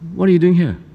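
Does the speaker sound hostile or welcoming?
hostile. The tone is cold, suspicious and unwelcoming. The visitor is not wanted there. "the tone of it was not, wow, welcome"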